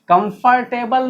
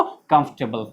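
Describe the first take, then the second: First: कंफर्टेबल drawn out slowly as "kam-far-TAY-bal"; wrong full pronunciation. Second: कंफर्टेबल low, squeezed to "KUMF-tebl"; correct "comfortable" pronunciation. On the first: Teacher rejecting the error, slow "kam-far-tay-bal". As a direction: sound every part of कंफर्टेबल, r included. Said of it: "नहीं". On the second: Teacher giving the answer, low "kumf-tebl". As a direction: say कंफर्टेबल with the r silent. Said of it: "तो क्या पढ़ेंगे इसको". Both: Shown as a demonstration.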